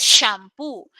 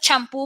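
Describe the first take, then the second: First: It is pronounced with English sounds, as shampoo. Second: It is pronounced with Spanish sounds, as champú. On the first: This is the original foreign term. "el término en sí es shampoo" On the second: This is the everyday adapted form. "somos grandes castellanizando los términos extranjeros y nosotros decimos"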